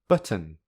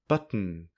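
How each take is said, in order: First: A clear t is followed by a vowel. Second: A glottal stop goes straight into n. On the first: "If there is a vowel between the two final consonants, then the t is pronounced as a t" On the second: "With the glottal plosive and a syllabic consonant, the pronunciation is this"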